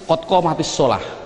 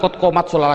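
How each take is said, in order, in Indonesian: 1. Vokal i yang ditambahkan menghubungkan t dengan kata berikutnya. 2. Huruf t di akhir langsung menyambung ke kata berikutnya. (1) "tapi kotko matis solah" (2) "Bukan kotko mat solah lagi"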